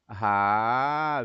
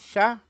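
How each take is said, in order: First: The syllable starts with a throaty r sound. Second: The syllable starts with a soft sh sound. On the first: The speaker calls it right. "Não é chá" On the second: The speaker calls it wrong. "É isso que faz o som?"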